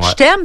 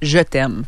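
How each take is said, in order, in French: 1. Ça se dit vite, sans y penser. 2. Ça se dit lentement, en prenant son temps. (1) "ça fait garrocher un peu" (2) "on dirait que tu te poses, tu prends le temps de le dire comme il faut"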